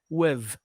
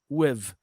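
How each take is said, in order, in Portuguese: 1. A palavra termina com som de v. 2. A palavra termina com som de v.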